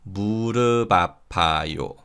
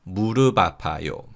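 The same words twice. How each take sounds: First: Slow linked demo. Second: Quicker linked demo. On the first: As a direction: say 무릎 아파요 slowly as "mu-reu-ba-pa-yo". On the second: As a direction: say 무릎 아파요 briskly as "mu-reu-ba-pa-yo". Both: Shown as a demonstration. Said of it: "So this is read".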